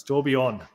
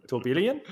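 First: Tourbillon said TOOR-bee-yon, nasal French ending; French pronunciation. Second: Tourbillon said tor-BILL-ee-on, rising like a question; wrong pronunciation. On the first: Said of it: "No, it's tourbillon". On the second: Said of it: "pronounce tourbillon with a British accent". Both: Shown as a demonstration.

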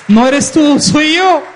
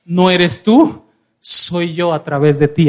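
First: Loud, high preaching climax; triumphant proclamation. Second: Low, slow, weighty assurance; assuring declaration. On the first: Preacher repeats Jesus's assurance after calling for applause, loud and triumphant. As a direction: cry it out to the whole congregation. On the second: Preacher voices Jesus assuring a humble servant, low and deliberate. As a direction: lay it down slowly and firmly. Voices Jesus, first take before shouted repeat. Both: Retold or imitated.

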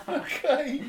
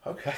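First: Much higher, squeaky, laughing okay; giddy with nerves, okay squeaked out through a laugh; nervous laughing okay. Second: Said in the usual way. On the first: Retold or imitated. Nervous laughing reply to Herbie.

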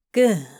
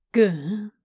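First: Firm, louder approval. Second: Whispered. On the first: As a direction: say it out with certainty. Crowley repeats approval. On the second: Crowley urging Aziraphale on. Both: Acted.

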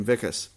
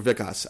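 First: Vikas with an unstressed, neutral last vowel; first pronunciation attempt. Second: Vikas with an open "ah" in the last syllable; alternative pronunciation attempt. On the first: Host reading the man's name from the story, Vikas ending "-kuhs". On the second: Host unsure of an Indian name, offering Vikas ending "-kahs". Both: Shown as a demonstration. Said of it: "I don't know how to say it".

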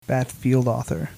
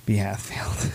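First: Batfield said as one word, B and H run together; mispronounced name. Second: B Hatfield, with a clear B and then Hatfield; corrected name. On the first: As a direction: Batfield as a single word, no pause after the B. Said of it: "I'm probably butchering". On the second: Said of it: "I'm so stupid". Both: Real, not acted.

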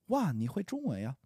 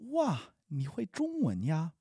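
First: At natural speaking speed; quickly. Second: Slow, careful teaching pace; slowly. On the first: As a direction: say it the way a native would, no slowing. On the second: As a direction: spell each syllable out for the learner. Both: Shown as a demonstration. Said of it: "I'll say it slowly and then quickly".

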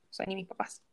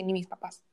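First: Softer repeat. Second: Said in the usual way. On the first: Real, not acted. Softer echo to her friend about her ex. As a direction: drop the repeat to a soft, hurt murmur.

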